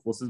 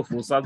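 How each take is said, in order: First: फोर्सेज with a short "sej" ending; usual pronunciation. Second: फोर्साज with a long open "saaj" ending; other pronunciation. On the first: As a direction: say फोर्सेज with a short "e" in the second syllable. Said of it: "कुछ लोग इसको फोर्सेज बोलते हैं". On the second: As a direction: say फोर्साज, stretching the second vowel to a broad "aa". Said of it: "कुछ लोग इसको फोर्साज बोलते हैं". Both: Shown as a demonstration.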